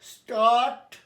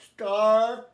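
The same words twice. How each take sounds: First: "start" said slowly and loud with a rising end, as a model word; loud, rising model of "start" for students to copy; careful pronunciation. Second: "start" repeated loud and level as a model; second clear model take of "start"; loud demonstration of "start" with a flat end; careful pronunciation. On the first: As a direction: demonstrate "start" clearly for the class. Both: Shown as a demonstration. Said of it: "আমার উচ্চারণ লক্ষ্য করো".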